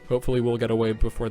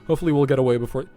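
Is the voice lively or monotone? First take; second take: monotone; lively. First: The voice stays flat on one pitch. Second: The voice has lively, varied pitch. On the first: The speaker calls it right. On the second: The speaker calls it wrong.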